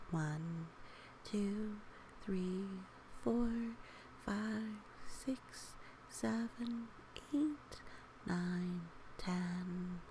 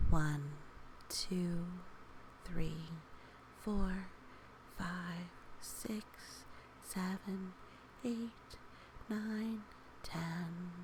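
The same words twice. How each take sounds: The two takes are said the same way.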